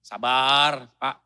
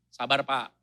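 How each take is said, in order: First: Soothing. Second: Said in the usual way. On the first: Shown as a demonstration. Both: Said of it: "butuh kerendahan hati".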